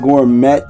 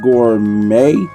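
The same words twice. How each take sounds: First: The final T sound is pronounced. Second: The final T sound is silent. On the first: The speaker calls it wrong. "my brain was saying gourmet" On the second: The speaker calls it right. "I know it's pronounced gourmet"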